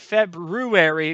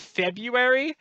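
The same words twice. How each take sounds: First: The first r sound is clearly pronounced. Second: The first r sound is left out. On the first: "you didn't say February because there's an R in it" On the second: "if you say February"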